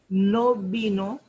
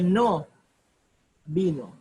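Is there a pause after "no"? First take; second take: no; yes. First: It runs on without a pause after no. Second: There is a pause after no.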